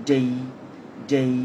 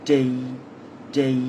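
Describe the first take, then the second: The two takes are said the same way.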